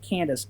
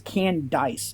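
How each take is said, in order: First: The second syllable sounds like 'dace'. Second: The second syllable sounds like 'dice'. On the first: The speaker calls it wrong. "you're mispronouncing it. It's not Candace" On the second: The speaker calls it right. "It's Candice"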